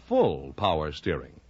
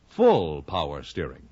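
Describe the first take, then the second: No difference in how they are said.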